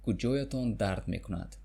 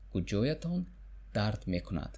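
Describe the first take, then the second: First: Said in the usual way. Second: Slowed for learners to repeat; chunked. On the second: Shown as a demonstration. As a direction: split after "Куҷоятон". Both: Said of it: "Where does it hurt?".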